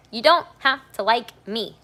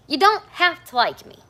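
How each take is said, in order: First: Loud, high, emphatic declaration; raised voice, firm and deliberate; louder for the back. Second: Loud, high, emphatic repeat; raised voice, firm and deliberate; louder for the back. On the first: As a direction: project it so the people in the back hear. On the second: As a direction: hammer the line home again, loudly. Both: Real, not acted. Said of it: "a little louder for the people in the back".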